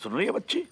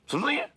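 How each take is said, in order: First: Said in the usual way. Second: "सुन रही है" pitched high with a sharp final rise; insistent question. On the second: Acted. Father making sure daughter listens, "सुन रही है" high and insistent. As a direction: press "सुन रही है" as a high, rising check.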